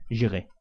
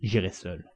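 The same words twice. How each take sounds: First: Said in the usual way. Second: Cool, level and lower: j'irai seul; coldly. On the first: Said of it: "dit froidement". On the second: A narrator's reading. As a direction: state it coldly, no emotion. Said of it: "dit froidement Phileas Fogg".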